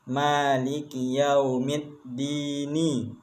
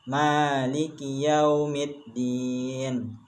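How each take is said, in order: First: The last word ends with a short vowel. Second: The last word ends on a bare consonant. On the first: This is the full form without stopping. "Tulisan ayat yang aslinya" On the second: The reader stops at this point. "bila diwakafkan maka bacaannya dibaca sukun"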